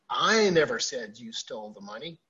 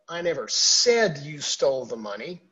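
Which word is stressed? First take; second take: I; said. First: The stress is on the word I. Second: The stress is on the word said.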